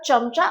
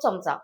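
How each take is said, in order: First: The first consonant is a palatal 'ch' sound. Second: The first consonant is a soft 'ts' sound. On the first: It names a flattering yes-man. "त्याचा अर्थ असा होतो, की हांजी-हांजी करणारा माणूस" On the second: It names the utensil used for eating. "आपण जो नेहमी खाण्यासाठी वापरतो तो चमचा"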